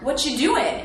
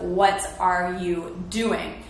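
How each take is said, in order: First: The words are run together and reduced. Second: Each word is pronounced separately and fully. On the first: It sounds casual. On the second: It sounds professional.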